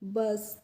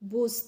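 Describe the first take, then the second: First: The vowel is an 'uh' sound, like 'cut'. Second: The vowel is an 'oo' sound, like 'push'. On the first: The speaker calls it right. "इसका pronunciation होना चाहिए बस" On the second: The speaker calls it wrong. "यू से तो ऊ की मात्रा लगती है तो ऊ लगा दिया"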